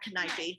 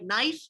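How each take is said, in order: First: The k at the start is sounded. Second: The k at the start is silent. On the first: "we should be pronouncing that knife" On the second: "like knife"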